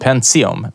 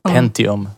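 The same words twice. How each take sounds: First: The middle consonant is a ts sound. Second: The middle consonant is a plain t sound. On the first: This is how the speaker always said it. "Jag sa alltid Pentium med som ett S, TS" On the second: This is how some other people said it. "som en del sa"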